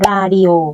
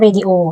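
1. ออกเสียงด้วยเสียงภาษาเกาหลีค่ะ 2. ออกเสียงด้วยเสียงภาษาอังกฤษค่ะ (1) "ทับศัพท์ของเกาหลีจะออกเสียงเป็น" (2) "ภาษาอังกฤษก็"

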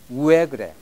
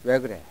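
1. 처음 'u' 소리는 강하고 길게 발음됩니다. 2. 처음 'u' 활음은 가볍고 약하게 발음됩니다. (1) "거기서 우를 강조해 보겠습니다" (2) "우가 처음에 들어가고 끝은 에로 나게 되어 있습니다"

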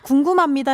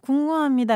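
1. 단어를 분명하고 또박또박 발음했어요. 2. 단어를 게으르게 뭉개서 발음했어요.

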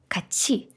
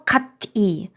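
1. Звук ч плавно переходить в і. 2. Звук т і коротка пауза перед і. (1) "І тому легше ж сказати качі" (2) "виходить якась дивна пауза між кат і і"

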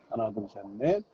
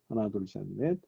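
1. 뒤에서 시끄러운 카페 소음과 함께 통화가 들립니다. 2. 조용한 배경에서 통화가 들립니다. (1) "시끄러운 카페 소음에서 파워비치 프로 전화통화 어떨지" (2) "조용한 실내에서 파워비치 프로 전화통화 음질이 어떤지"

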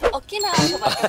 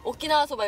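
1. 콧소리 내서 꾸며 말하고 있어. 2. 보통 목소리로 말하고 있어. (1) "콧소리가" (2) "보통 오키나와 소바 이런데"

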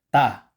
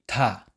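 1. Matigas ang t, walang hangin. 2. May hangin ang t sa paglabas. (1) "Dapat walang hangin sa pagitan ng sangtigat at a" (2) "Hindi ta"

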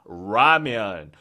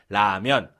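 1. 혀끝을 말아서 내는 영어식 r 소리로 시작해요. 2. 그냥 한국어 탄설음 소리로 시작해요. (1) "이렇게 안 하잖아요" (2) "그냥 라면"

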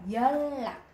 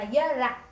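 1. Phụ âm giữa được đọc như l kép. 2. Phụ âm giữa được đọc như n rồi r. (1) "mình đọc nó sẽ là dân lạc" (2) "mình không đọc là dân lạc"

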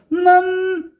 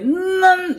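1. 소리가 편안하고 목에 긴장이 없습니다. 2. 소리가 목에서 밀리고 긴장되어 있습니다. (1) "목에 힘을 빼서 난" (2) "목에 난 이러면 목이 바로 가게 되죠"

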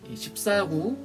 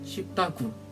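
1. 분명하게 발음되었습니다. 혀 짧은 소리는 없습니다. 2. 혀 짧은 소리로 발음되어 'swipdagu'처럼 들립니다.

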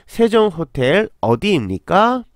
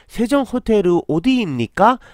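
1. 韓国語の発音で言われています。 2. 日本式の発音で言われています。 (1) "ちょっと韓国の発音にしてみたら" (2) "どうしても難しかったら、"

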